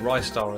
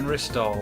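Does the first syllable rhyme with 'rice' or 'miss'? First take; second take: rice; miss. First: The first syllable rhymes with 'rice'. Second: The first syllable has a short vowel, like 'miss'. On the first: The speaker calls it wrong. "as some people pronounce it, but they're wrong" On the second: The speaker calls it right. "I think it's supposed to be Ristar"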